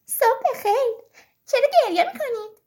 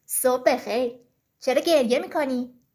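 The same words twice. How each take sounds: First: High, loud little story bee; bee character. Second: Low-voiced story fox asking; fox character. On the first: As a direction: pipe up as a bee greeting the criers. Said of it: "بالای سرشون پرواز کرد و گفت". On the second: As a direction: play the fox low, with a questioning greeting. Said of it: "روباه از راه رسید و گفت". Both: A narrator's reading.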